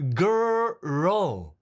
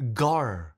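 First: The word is drawn out, in two beats. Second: The word is said short, in one beat. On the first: The speaker calls it right. "It's girl. ... 약간 두 박자 느낌이죠" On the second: The speaker calls it wrong. "한국 학생은 어떻게 합니까?"

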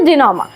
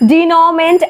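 First: The word ends with a 'ma' sound. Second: The word ends with a 'ment' sound. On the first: The speaker calls it right. "এটার actual উচ্চারণ হচ্ছে জিনোমা" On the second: The speaker calls it wrong. "এমনি পড়তে গেলে জিনোমেন্ট এমন উচ্চারণ হয়"

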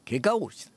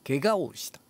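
No difference in how they are said.

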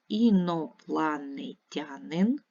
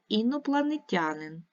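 First: The word is said slowly and distinctly. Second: The word is said quickly. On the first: "Читаємо виразно, читаємо повільно" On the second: "І читаємо швидко"

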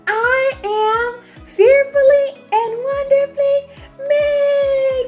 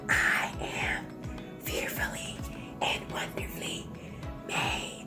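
First: It is said very loudly. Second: It is said in a whisper.

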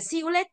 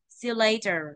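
First: The stressed syllable rises sharply, like a Vietnamese high tone. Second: The stressed syllable falls slightly and relaxes. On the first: The speaker calls it wrong. "Không phải see you later đâu nhá" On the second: The speaker calls it right. "Mà là gì?"

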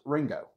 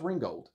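First: The name ends without any d sound. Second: The name ends with a clear d sound. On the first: The speaker calls it right. "It's pronounced Ringo" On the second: The speaker calls it wrong. "It's not pronounced Ringgold"

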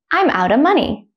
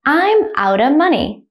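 First: The sentence is said at normal speed. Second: The sentence is said slowly. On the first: "the second time I'll say it at a normal speed, like a native speaker" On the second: "The first time I'll say it slowly"

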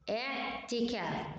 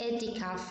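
First: The vowel in the last syllable is long. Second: The vowel in the last syllable is short. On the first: The speaker calls it right. "إشارة إنها مد بالألف" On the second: The speaker calls it wrong. "so don't say اعتكاف"

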